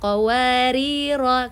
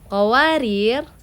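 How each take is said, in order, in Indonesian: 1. Kata ini berakhir dengan vokal pendek. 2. Kata ini berakhir dengan konsonan tanpa vokal. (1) "kalau disambung menjadi pendek" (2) "kalau saya wakof pada kata qawarir"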